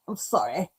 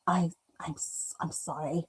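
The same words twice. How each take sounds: First: Said in the usual way. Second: Hushed unvoiced apology; sheepish whispered sorry. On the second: Real, not acted. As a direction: breathe the apology with no voice. Apologising while muted, whispering.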